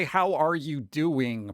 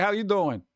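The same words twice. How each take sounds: First: Slow, fully enunciated HOW ARE YOU DOING; careful proper pronunciation. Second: Quick, casual New York "How you doing"; New York accent. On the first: New Yorker straining to speak properly, careful and deliberate "How are you doing". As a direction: say "How are you doing" slowly, every word separate. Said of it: "properly without thinking about it". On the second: Streamer showing chat his habitual greeting, casual New York accent. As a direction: drop the "are" like an Italian-American New Yorker. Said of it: "I'm always like". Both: Shown as a demonstration.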